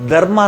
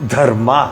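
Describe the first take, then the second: First: The first consonant is said without aspiration. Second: The first consonant is said with aspiration. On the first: The speaker calls it wrong. "ಧರ್ಮ ಅಂದ್ರೆ ತಪ್ಪದು" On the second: The speaker calls it right. "ಇಲ್ಲಮ್ಮ ಅದು ಧರ್ಮ ಅನ್ಬೇಕು"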